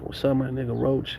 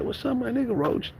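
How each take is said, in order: First: Lightly imitated friend, a little soft; friend's greeting. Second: High-pitched imitation of himself as a kid; kid's greeting back. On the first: Friend greets his buddy on sight, lightly imitated. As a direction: greet him as your buddy would, easy and unforced. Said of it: "he's like". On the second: Kid answers his friend's greeting, high mock-excited squeal. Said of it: "And I'm like".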